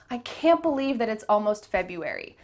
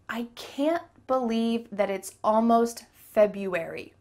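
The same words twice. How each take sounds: First: The sentence is spoken a little faster. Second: The sentence is spoken at a normal pace.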